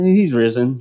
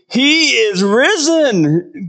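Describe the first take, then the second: First: "he's risen" tossed off with no weight; offhand, underwhelmed. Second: High, slow, loud proclamation; exclaimed loudly. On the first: Pretend. Pastor mocking a ho-hum Easter announcement, offhand. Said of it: "I don't think it was a". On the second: Shown as a demonstration. Pastor showing how the angel's news should sound, exclaimed loudly. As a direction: shout it out slowly so nobody misses it. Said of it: "meant to be exclaimed loudly".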